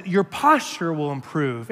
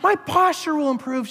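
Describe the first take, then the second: First: Said in the usual way. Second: High deadpan echo; mock robotic recitation; parroting the letter. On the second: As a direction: chant it like a brainwashed believer. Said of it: "I'm like".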